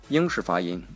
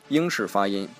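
The two takes are said the same way.

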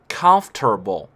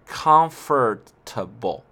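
First: The F and T run together, like comf-ter-ble. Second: Every syllable is said, following the spelling. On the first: The speaker calls it right. "美国人发音的方式呢是Comfortable，也就是说F 和T 连在一起" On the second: The speaker calls it wrong. "它并不是按照它的这个单词的顺序Comfortable 显然这样不舒服"

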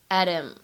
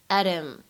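First: The t is a quick flap into him. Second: The t is a quick flap into him.

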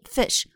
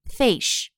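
First: The vowel is short and crisp. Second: The vowel is long and drawn out. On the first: The speaker calls it right. "短促有力fish" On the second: The speaker calls it wrong. "不要读成fish"

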